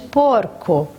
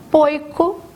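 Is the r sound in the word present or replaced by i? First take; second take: present; replaced by i. First: The r sound is clearly present. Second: The r sound is replaced by an i sound. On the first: The speaker calls it right. "ao invés de porco" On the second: The speaker calls it wrong. "quando a criança fala poico"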